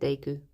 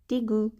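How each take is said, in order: First: The first syllable sounds like 'day'. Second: The first syllable sounds like 'dee'. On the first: This is how the speaker habitually says it. "but I always say it Daegu" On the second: This is how many people say it. "A lot of the time people pronounce it Digu"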